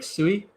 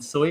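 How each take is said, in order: First: The vowel is pronounced like 'wee'. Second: The vowel is pronounced like 'oy'. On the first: The speaker calls it wrong. "I said it more like sui" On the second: The speaker calls it right. "rather than soy"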